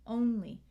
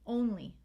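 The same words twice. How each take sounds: First: The final vowel is a clear long E. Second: The same.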